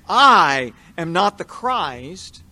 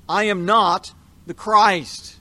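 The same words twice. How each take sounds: First: "I" stretched out and louder, the whole line slow; John stressing "I", hinting that another will come. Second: NOT leaned on, slow and louder; a solemn oath, hitting "not"; stress on NOT. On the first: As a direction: lean on "I" in "I am not the Christ", slowly. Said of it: "there's an extra emphasis on the word "I". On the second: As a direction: press hard on "not" in "I am not the Christ". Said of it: "to stress the truthfulness of what he is about to say". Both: Shown as a demonstration.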